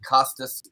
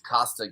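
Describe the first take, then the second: First: The first name ends with an s sound. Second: The first name ends without an s sound. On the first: The speaker calls it wrong. "it's not Costas" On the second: The speaker calls it right. "it's Costa Gavras. Uh it's not plural"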